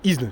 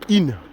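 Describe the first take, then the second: First: The s is sounded, read as spelled. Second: The s is silent, just a nasal vowel. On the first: The speaker calls it wrong. "Ça s'écrit Isne, mais c'est pas Isne" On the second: The speaker calls it right. "c'est In"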